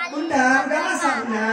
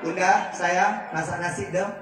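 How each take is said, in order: First: Higher, louder, demanding husband; bossy demand. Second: Gentle request. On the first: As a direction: order her about like a boss. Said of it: "Nggak begitu". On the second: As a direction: ask your wife kindly, no pressure. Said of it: "Nggak begitu, Pak". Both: Shown as a demonstration.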